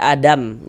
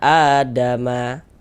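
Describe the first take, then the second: First: The word ends on the consonant m. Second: The word ends with a short a vowel. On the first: The reader stops at the end of the verse. The speaker calls it right. "ini kita baca Adam" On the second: The reading continues as if not stopping. The speaker calls it wrong. "jangan dibaca Adama"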